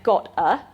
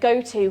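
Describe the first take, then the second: First: A glottal stop and a steady, unchanging vowel. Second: A full t sound and a gliding vowel. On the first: "he had a glottal stop instead of a t sound, and he also used it, used that monophthongal goat vowel" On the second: "instead of go to"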